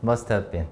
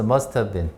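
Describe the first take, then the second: First: The words are linked together quickly. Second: The words are linked together quickly.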